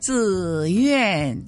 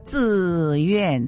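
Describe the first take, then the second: First: The second syllable starts high and falls low. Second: The second syllable starts mid and falls low. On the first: "第二个字又从5 降到1 了。比如说自愿，那不就是轻重式了" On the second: "平时是这样的自愿"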